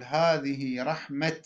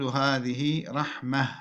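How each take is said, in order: First: "هذه رحمة" ending in a crisp t; pausal ta. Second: Slow "هذه رحمة" ending in h; pausal ha. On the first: Teacher quoting some Arabs, "هذه رحمة" with final t. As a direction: stop on "هذه رحمة" as rahmat. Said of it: "يقف بالتاء". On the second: Teacher showing the purer stop, "هذه رحمة" with final h. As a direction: turn the last t of "هذه رحمة" into h. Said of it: "الوقف بإبدالها هاء". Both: Shown as a demonstration.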